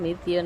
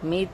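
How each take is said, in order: First: The name ends with an added ya sound. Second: The name ends in a plain t sound. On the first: The speaker calls it wrong. "મિત્ય નહીં કહેવાનું" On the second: The speaker calls it right. "મિત બોલવાનો"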